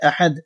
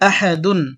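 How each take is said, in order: First: The word ends with a bare d sound. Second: The word ends with the syllable dun. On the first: The reading stops at this word. "যখন অক্ফ করব তখন এই দাল সাকিন হয়ে যাবে, আহাদ হয়ে যাবে" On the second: The reading continues without stopping. "দাল দুই পেশ দুন"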